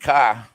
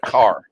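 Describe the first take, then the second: First: It is said with a Pennsylvania accent. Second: It is said with a general American accent. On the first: This is how people back home say it. "I got harassed for saying car" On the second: This is how others say it. "instead of car"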